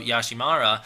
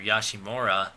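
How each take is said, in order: First: "Yashimara", ending like "MAH-ra"; "mara" ending. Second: "Yashimura", the ending rounded rather than "mara"; "mura" ending. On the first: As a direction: say "Yashimara" with an open "ah" in the third syllable. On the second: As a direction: say "Yashimura" with a rounded vowel in the third syllable. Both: Shown as a demonstration. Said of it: "or Yashimura".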